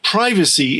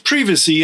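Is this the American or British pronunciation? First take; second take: American; British. First: It uses the American pronunciation. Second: It uses the British pronunciation. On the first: "in the United States and Canada" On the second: "in the United Kingdom"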